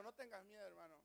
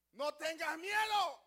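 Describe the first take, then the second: First: Soft, intimate reassurance; quiet comfort for a neighbour in the pew; softly to your brother. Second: Loud, slow command not to fear; strong, slow divine comfort; bold reassurance. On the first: Shown as a demonstration. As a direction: say it gently to the person beside you. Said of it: "Dile a tu hermano". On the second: Acted. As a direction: boom it out as God speaking to Abraham. God comforts Abraham in a strong voice.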